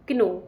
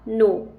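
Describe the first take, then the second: First: The word starts with a k before n. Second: The word starts with an n, no k. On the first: The speaker calls it wrong. "ना कि क्नो" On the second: The speaker calls it right. "के यहाँ पर silent है, ... pronunciation होगा नो"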